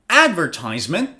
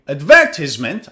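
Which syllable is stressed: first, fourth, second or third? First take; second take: first; second. First: The stress is on the first syllable. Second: The stress is on the second syllable.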